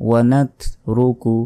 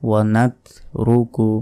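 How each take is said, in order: The two takes are said the same way.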